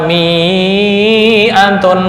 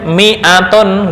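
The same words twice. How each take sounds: First: The vowel is said long. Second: The vowel is said short. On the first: The speaker calls it wrong. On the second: The speaker calls it right.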